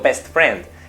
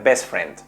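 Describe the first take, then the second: First: The T at the end of best is pronounced. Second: The T at the end of best is dropped. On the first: "no digo best friend, que también estaría bien" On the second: "para ir más rápido, puede ser que esas T's finales las perdamos"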